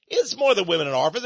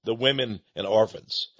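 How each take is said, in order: First: Said in the usual way. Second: Low, sneering repeat of "women and orphans"; mocking echo. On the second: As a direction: throw "women and orphans" back with scorn, voice dropped low. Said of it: "Ha ha".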